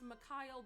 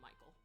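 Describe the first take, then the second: First: The name is said as 'Mikhail'. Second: The name is said as 'Michael'. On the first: This is how the name is really pronounced. The speaker calls it right. "It's pr- it's Mikhail" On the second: Another person mispronounces the name this way. The speaker calls it wrong. "but Meg is calling him Michael"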